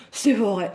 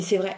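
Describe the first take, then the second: First: Put-on childlike delight on C'est vrai; a kid who just got a present; like a little girl. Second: Said in the usual way. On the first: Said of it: "on aurait dit une vraie gamine". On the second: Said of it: "Je lui dis".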